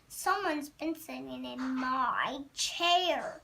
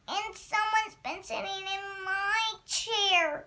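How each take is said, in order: First: It is said in a great huge voice. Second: It is said in a wee small voice.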